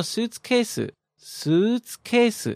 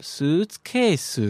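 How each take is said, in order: First: Slow, high "suitcase" that drops at the end; falling intonation. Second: High "Suitcase" swept back up on the last syllable; rising question intonation. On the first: Teacher shows how the word normally ends, falling intonation on "suitcase". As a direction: say "suitcase" drawn out, letting the last syllable fall. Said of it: "ends down". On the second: Teacher copies the student's question, "Suitcase" with rising end. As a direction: dip through "Suitcase", then lift the end into a question. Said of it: "she took it back up". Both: Shown as a demonstration.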